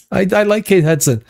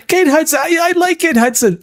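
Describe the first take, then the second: First: Said in the usual way. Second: Much higher, gushing fan squeal; giddy fan gushing over Kate Hudson; mock gushing.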